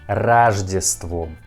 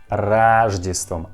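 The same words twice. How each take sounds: First: The first vowel sounds like A. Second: The same.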